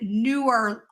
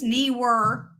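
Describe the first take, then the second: First: The first syllable sounds like 'new'. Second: The first syllable sounds like 'knee'. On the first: "opposite of older" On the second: "Neewer like kneecaps"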